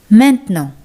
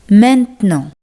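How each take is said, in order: No difference in how they are said.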